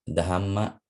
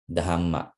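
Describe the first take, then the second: Both takes have the same delivery.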